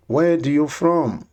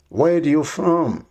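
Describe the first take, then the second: No difference in how they are said.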